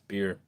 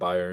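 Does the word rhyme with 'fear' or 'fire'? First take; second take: fear; fire. First: The word rhymes with 'fear'. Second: The word rhymes with 'fire'. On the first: The speaker calls it right. "it's beer" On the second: The speaker calls it wrong. "It's not buyer"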